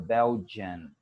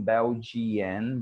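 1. Nenhuma vogal extra é pronunciada antes do n. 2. Uma vogal extra, ee, é pronunciada antes do n. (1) "but the I is silent" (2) "Não Belgian"

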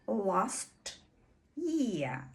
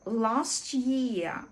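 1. Звуки t і y вимовляються окремо. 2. Звук t повністю пропускається. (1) "у стандартній вимові ми маємо почути last year" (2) "коли звук «ч» зовсім випадає, і це буде last year"

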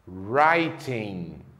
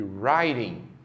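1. O T do meio é um som de T claro. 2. O T do meio soa como um tepe rápido. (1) "a letra T tem sempre o som de T" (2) "a letra T geralmente é pronunciada com o som do nosso R"

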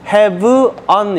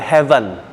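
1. 두 단어는 따로 발음해요. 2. 두 단어가 하나처럼 붙어서 발음돼요. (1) "have on 이러지 마시고" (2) "연음을 시키면 어떻게 돼? heaven"

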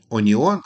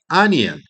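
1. Починається зі звуку 'o', як у 'o-ni-on'. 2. Починається зі звуку 'a', як у 'a-ni-en'. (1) "Не оніон" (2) "але анієн"

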